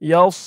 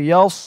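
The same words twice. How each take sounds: The two takes are said the same way.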